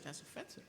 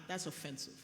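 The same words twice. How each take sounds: First: Quiet aside. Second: Said in the usual way. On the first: Retold or imitated. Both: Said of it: "And I just said".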